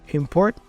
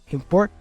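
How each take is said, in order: Both takes have the same delivery.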